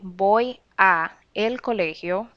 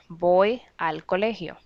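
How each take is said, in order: First: The preposition and article are said separately. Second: The preposition and article merge into one word. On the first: The speaker calls it wrong. "you wouldn't say" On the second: The speaker calls it right. "You have to make a link there"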